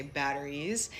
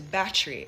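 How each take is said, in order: First: "batteries" in full, with the middle syllable kept; American pronunciation. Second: "battery" squeezed into two syllables, "bat-tri"; condensed Jamaican pronunciation. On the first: Showing how Americans say it, American pronunciation. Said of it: "in an American accent". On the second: Showing how patois shortens the word, condensed Jamaican pronunciation. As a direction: drop the middle vowel of "battery". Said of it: "condense it to battery". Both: Shown as a demonstration.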